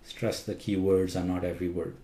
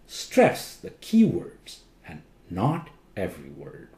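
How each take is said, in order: First: All words are said flat, equally loud. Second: The key words are louder than the others. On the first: The speaker calls it wrong. "all words are spoken flat" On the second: The speaker calls it right. "Stress the key words and not every word"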